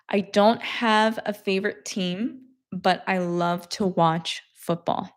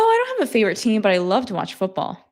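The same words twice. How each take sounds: First: It is spoken slowly and deliberately. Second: It is spoken at a normal, fairly fast pace. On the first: "then I slowed it down so that you can understand" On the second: "hearing me speak in the normal speed"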